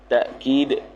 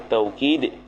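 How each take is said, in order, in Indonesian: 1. Suku kata pertama diakhiri dengan hentian glotis. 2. Suku kata pertama memiliki diftong 'au'. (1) "dengan hamzah" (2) "Bil wawi jar majrur dengan waw"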